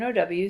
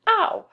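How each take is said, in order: First: Said in the usual way. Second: High, loud yelp of mock pain; hurt "ow". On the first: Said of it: "so O, U, and O, W say ow". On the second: Shown as a demonstration. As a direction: yelp OW as if you just hurt yourself. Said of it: "like you hurt yourself".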